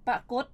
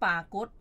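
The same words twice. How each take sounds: First: ปรากฏ with a short, quick first "pa"; short first vowel. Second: ปากฏ with a drawn-out first "paa"; long first vowel. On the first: Host sets out the confusing word pair, ปรากฏ with short first vowel. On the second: Host sets out the confusing word pair, ปากฏ with long first vowel. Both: Shown as a demonstration. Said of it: "อีกคู่คำหนึ่งก็ลักษณะเดียวกัน".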